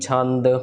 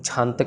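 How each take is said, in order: First: It starts with 'chh' and ends with 'd'. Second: It starts with 'chh' and ends with 't'. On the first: The speaker calls it right. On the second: The speaker calls it wrong.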